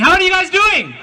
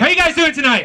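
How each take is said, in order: First: It is said with a put-on accent. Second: It is said without a put-on accent.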